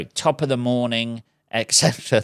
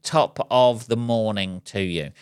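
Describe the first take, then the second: First: Irish accent attempt. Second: Put-on a slower go at a stock Irish accent, drawing out "Top of the morning"; slow Irish accent attempt. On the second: Vlogger trying his Irish accent for viewers on Saint Patrick's Day, slow mock Irish. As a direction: stretch it out in a hammy Irish accent. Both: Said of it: "there's my attempt at an Irish accent".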